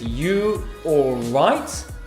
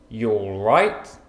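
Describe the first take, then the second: First: The word 'you' is said in full. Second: The word 'you' is shortened to a 'y' sound. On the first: The speaker calls it wrong. "but we don't say it like that" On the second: The speaker calls it right. "we contract them to y"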